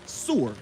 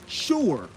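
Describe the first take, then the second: First: It starts with an s sound, two syllables. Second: It starts with an sh sound, one syllable. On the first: It reads the letters as they are written. "you don't say sewer" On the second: It is the usual way people say it. "You say sure"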